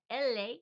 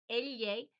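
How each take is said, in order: First: Elle as EL-ay, plain L, louder; Spanish letter L. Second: Elle as EL-yay, higher and louder; Spanish elle. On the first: Contrasting two letters for learners, elle as EL-ay. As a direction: say elle without the y glide, 'EL-ay'. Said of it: "which is the L". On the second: Contrasting two letters for learners, elle as EL-yay. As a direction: say elle with a ly glide, 'EL-yay'. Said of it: "the tongue gets a lot wider". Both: Shown as a demonstration.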